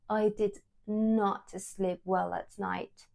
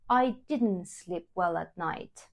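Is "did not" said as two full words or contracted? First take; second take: full words; contracted. First: Did not is said as two full words. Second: Did not is contracted into one short word. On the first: It sounds like written language. The speaker calls it wrong. "it's quite weird when I hear it like" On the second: It sounds like everyday speech. The speaker calls it right. "I prefer to use the contraction"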